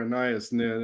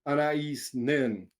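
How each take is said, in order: First: Anais said "uh-NYE-us"; uh-NYE-us pronunciation. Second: Anais said "ah-nah-EES"; ah-nah-EES pronunciation. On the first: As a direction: say Anais with a stressed "NYE" in the middle. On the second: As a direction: say Anais with an opening "ah" and ending "EES". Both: Shown as a demonstration. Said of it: "if you pronounce it that way".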